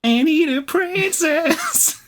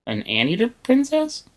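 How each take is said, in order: First: High, slow dainty princess. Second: High amused "Anteater princess?"; amused disbelief. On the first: Pretend. Echoes in princess voice. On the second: Real, not acted. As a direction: ask it in delighted disbelief.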